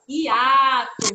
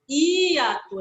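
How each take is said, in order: First: The stress is on the middle syllable. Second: The stress is not on the middle syllable. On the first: The speaker calls it right. "a sílaba mais forte... O A" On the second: The speaker calls it wrong. "A gente não fala hiato"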